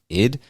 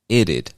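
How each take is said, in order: First: It is said as one short syllable. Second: It is said as two syllables. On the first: "some people pronounce it like id" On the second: "Some people pronounce it like itted"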